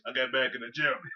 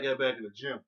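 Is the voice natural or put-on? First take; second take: put-on; natural. First: It is said in a changed, put-on voice. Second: It is said in his normal voice.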